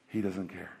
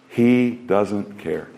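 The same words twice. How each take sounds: First: He doesn't care, almost under the breath; hushed aside. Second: He doesn't care, slow and weighted with every word pressed; slow emphatic repeat. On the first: Preacher to congregation, a hushed first take. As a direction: drop it to a near hush. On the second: Preacher to congregation, slow emphatic repeat. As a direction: lean into it slowly. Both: Shown as a demonstration.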